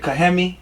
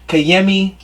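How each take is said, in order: First: The middle consonant is an H sound. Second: The middle consonant is not an H sound. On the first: "The J is usually an H sound" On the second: "They don't use J's"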